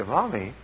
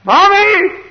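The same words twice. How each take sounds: First: Tentative call. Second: Very high, loud yell; lost child's scream. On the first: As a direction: call quietly for mother, unsure. Child's first, soft call. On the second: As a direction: scream for mother as a lost kid. Child's call turns to scream. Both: Retold or imitated.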